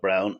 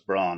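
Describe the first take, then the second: First: The vowel sounds like the one in 'down'. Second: The vowel sounds like the one in 'dawn'. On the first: The speaker calls it right. "She likes to be called Brown" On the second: The speaker calls it wrong. "A lot of people mispronounce that as"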